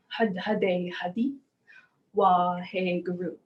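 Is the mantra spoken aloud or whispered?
aloud. The mantra is spoken aloud in a full voice.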